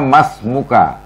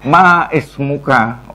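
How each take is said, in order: First: The vowel is dropped, linking straight into 'smuka'. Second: A separate glottal stop begins 'ismuka'. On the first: The speaker calls it right. "Maka bacanya mas muka" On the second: The speaker calls it wrong. "Ora ma is muka. Ora ngono"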